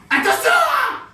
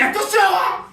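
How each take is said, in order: First: Very high, shouted mock warning; too-high shout. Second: Loud, raised-voice mock warning; high-pitched warning. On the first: Comedian overdoes a character's warning, far too high and shouted. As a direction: push the warning far up into a piercingly high yell. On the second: Comedian acts out a character warning another, high and loud. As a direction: call it out high and loud, short of the very top. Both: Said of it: "c'est trop aigu".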